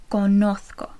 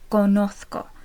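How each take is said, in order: First: The z is pronounced as a th sound. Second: The same.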